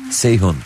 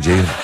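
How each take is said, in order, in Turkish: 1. İsim s sesiyle başlıyor. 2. İsim j sesiyle başlıyor. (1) "Bana mesela Seyhun diyorlar" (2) "Öyle bir şey yok diyorum"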